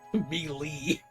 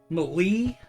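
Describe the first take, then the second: First: It is said without a strong E sound. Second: It is said with a strong E sound. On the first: The speaker calls it right. "As long as we know the right way to say it" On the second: The speaker calls it wrong. "The strong E sound"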